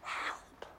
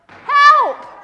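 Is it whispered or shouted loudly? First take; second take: whispered; shouted. First: It is whispered quietly. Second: It is shouted loudly.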